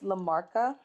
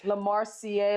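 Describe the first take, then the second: First: The name is said as one smooth word. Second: The name ends with separately spelled letters. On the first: The speaker calls it right. "I can't believe I'm saying it right" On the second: The speaker calls it wrong. "I definitely used to butcher this"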